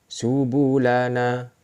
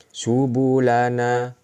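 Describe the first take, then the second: Both takes have the same delivery.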